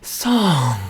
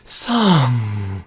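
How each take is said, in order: First: "song" with air cut off at the end; glottal stop ending. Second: Breathy, louder "song" with air escaping. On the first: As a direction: clip "song" shut at the glottis. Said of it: "at the end, song, that air is cut off". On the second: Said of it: "say the word song in that extremely weird and awkward breathy voice". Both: Shown as a demonstration.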